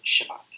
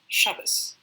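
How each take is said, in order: First: The final consonant is a t sound. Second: The final consonant is an s sound. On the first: This is the pronunciation of other dialects. "in other dialects, it's usually pronounced as t"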